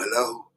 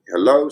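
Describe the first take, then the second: First: It is said in a rough voice. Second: It is said in a smooth, normal voice.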